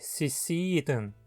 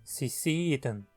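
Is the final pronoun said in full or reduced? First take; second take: reduced; reduced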